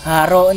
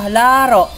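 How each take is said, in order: First: The word begins with an h sound. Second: The word begins with an l sound. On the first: The speaker calls it wrong. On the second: The speaker calls it right.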